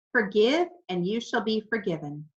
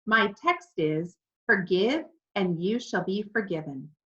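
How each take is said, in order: First: Said in the usual way. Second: Completely serious. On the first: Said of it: "my text is one you all know". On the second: A narrator's reading. Pastor repeating his text to the parrot, completely serious. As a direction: restate it firmly, ignoring the interruption. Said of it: "he said, completely serious".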